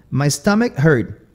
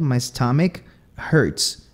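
First: "hurt" with no S at the end; final S dropped. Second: Slow "hurts" with a clear S at the end; final S sounded. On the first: Teacher showing Southern verbs, "hurt" without its final S. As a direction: leave the S off "hurt". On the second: Teacher showing the correct form, slow "hurts" with final S. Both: Shown as a demonstration. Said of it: "Seria o correto".

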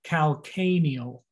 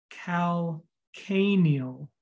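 First: Calcaneal joined up, cal-CAY-neal, second A stressed. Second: Calcaneal very slowly, cal... CAY-neal, the second A stretched; stress on second A. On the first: Teacher repeating the heel's term, calcaneal, stressed on the second A. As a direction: say calcaneal as one word, leaning on CAY. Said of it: "the second A". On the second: Teacher introducing the heel's term, calcaneal slowly broken up for emphasis. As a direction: break calcaneal in two and lean on the second A. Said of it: "Emphasis on the A, the second A". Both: Shown as a demonstration.

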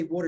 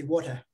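First: Said in the usual way. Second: Put-on "water" in a South African accent, no r at the end, like "waw-tuh". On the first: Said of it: "with the South African accent". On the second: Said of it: "um, with the South African accent".

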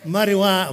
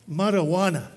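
First: Marijuana tried again, louder; trying marijuana. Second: Marijuana, mock Spanish sound; Spanish-style marijuana. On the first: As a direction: test the sound of Marijuana out loud. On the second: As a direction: say Marijuana as mar-uh-WAH-na. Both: Shown as a demonstration. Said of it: "How must I say that word?".

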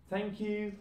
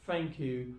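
First: "Thank you" with the TH kept, pitched high. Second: "thank you" said as "fank you". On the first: Teacher giving the form before Cockney, "Thank you" with TH. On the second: Teacher showing learners Cockney British, "thank you" with F for TH. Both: Shown as a demonstration. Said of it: "T H will turn into fur sound".

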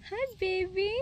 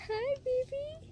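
First: Pet talk. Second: Squeaky coo to a cow; high pet voice. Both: Real, not acted. Cooing at animals.

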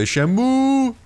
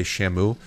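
First: Shamu with a high, drawn-out final "ooh"; emphasis on the "ooh". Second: Said in the usual way. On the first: Shown as a demonstration. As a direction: hit the end of Shamu high and hold it. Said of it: "really put the emphasis on the ooh". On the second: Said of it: "you can't just say Shamu".

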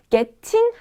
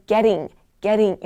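First: "getting" with a crisp, fully released T; hard T. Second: Flick the tongue once mid-word in "getting"; flapped T. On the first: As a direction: say "getting" as get-ting, no flap. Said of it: "약간 촌스럽게 들릴 수 있어요". ("getting"을 T 소리 살려 '겟팅'으로) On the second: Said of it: "약간 R 발음처럼". ("getting"을 혀를 튕겨 '게링'처럼) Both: Shown as a demonstration.

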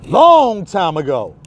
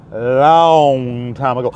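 First: Said in the usual way. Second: Low, slow storyteller echo; low drawn-out echo; dramatic slow echo. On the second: Shown as a demonstration. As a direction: draw it out low like a legend. Repeated dramatically.

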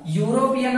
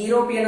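First: ಯುರೋಪಿಯನ್ begun with "yu", as yu-ropian; correct pronunciation. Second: ಯುರೋಪಿಯನ್ begun with "ee", as ee-ropian; wrong pronunciation. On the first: Teacher confirming how we pronounce it, ಯುರೋಪಿಯನ್ as "yoo-ropian". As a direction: open ಯುರೋಪಿಯನ್ on a clear "yoo". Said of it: "ಯುರೋಪಿಯನ್ ಅಂತ pronounce ಮಾಡುತ್ತೀವಿ". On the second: Teacher asking if anyone says it so, ಯುರೋಪಿಯನ್ as "ee-ropian". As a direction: open ಯುರೋಪಿಯನ್ on "ee" with no "y" glide. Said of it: "ಯಾರಾದ್ರೂ ಯುರೋಪಿಯನ್ ಅಂತ pronounce ಮಾಡ್ತೀವೇನು?". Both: Shown as a demonstration.

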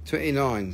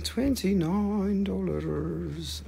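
First: Said in the usual way. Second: Slow drawn out price. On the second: Acted. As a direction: stretch twenty-nine dollars way out slowly. Drawn out, odd voice.

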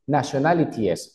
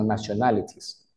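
First: "nationalities" wrongly ending in -ti-es, with the E sounded; E pronunciada por error. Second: "nationalities" ending in -tis, with no E before the S; E muda. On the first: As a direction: sound the silent E before the S in "nationalities". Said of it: "tú no puedes decir". ("nationalities" pronunciando la E antes de la S) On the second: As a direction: drop the E before the final S of "nationalities". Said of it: "esa E antes de la S es completamente muda". ("nationalities" con la E muda, terminado en -tis) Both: Shown as a demonstration.

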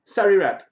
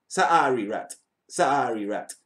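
First: Said in the usual way. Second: "Sorry" with a long open "saa", lower and softer; drawn-out sorry. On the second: Shown as a demonstration. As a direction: stretch the first vowel of "Sorry rat" into "saari rat". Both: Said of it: "It don't matter how me say it".

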